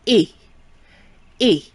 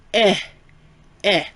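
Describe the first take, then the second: First: "E" said as a closed French é, like "ay"; French é sound. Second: "eh" said as an open short e; French è sound. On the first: Teacher demonstrating accent aigu, "E" as closed é. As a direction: say "E" like "ay", without the glide. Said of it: "is always in French pronounced". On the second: Teacher demonstrating accent grave, "eh" as open è. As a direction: say "eh" open, as in "bet". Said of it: "is always pronounced". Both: Shown as a demonstration.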